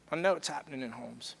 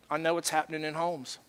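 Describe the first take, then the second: First: Softer, lower echo of the line; hushed repeat. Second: Said in the usual way. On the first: Real, not acted. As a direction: let it sink in, quietly. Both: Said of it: "repeated for emphasis".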